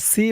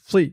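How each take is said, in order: First: The s is thin, with the mouth not rounded. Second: The s is heavy, with a full, rounded mouth. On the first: The speaker calls it wrong. "একেবারে সি বলা যাবে না সি বললে কিন্তু সেনের উচ্চারণ হয়ে যাবে" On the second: The speaker calls it right. "বলতে হবে সি মুখটা একটু গুল ভরপুর থাকবে"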